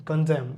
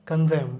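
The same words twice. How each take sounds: Both takes have the same delivery.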